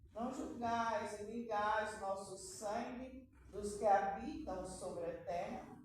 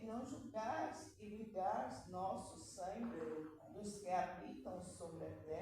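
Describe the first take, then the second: First: It is read loudly, in a higher voice. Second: It is read quietly, in a lower voice.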